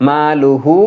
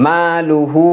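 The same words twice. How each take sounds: Both takes have the same delivery.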